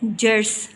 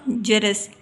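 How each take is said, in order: First: The word is said as one syllable, jars. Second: The word is said as two syllables, jaras. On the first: The speaker calls it wrong. "गलत तलफ़ुज़ है" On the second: The speaker calls it right. "सही तलफ़ुज़ है"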